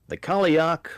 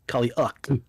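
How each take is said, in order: First: The name ends with a plain, clean k sound. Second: The name ends with a harsh, throaty rasp. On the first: "I'm gonna call it the Kaliak though, because I think it's offensive for me to add the at the end" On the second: "Like you got to have that, like that, that cat hairball at the end of it"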